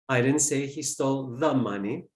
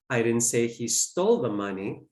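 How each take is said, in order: First: The word 'the' is stressed. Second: The word 'stole' is stressed. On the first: It may have been some other money. "maybe it's some other cache of money" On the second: He may have taken it some other way. "Maybe he borrowed it"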